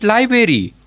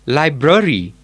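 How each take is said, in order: First: "library" as LAI-beri, first r dropped; mispronounced library. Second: "library" as LAI-bruh-ri, both r's sounded; corrected library. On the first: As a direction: quote the faulty "library", saying LAI-beri. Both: Shown as a demonstration. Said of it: "Not library, it's library".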